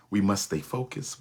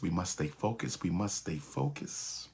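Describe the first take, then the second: First: Said in the usual way. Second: Fading repetition. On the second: Shown as a demonstration.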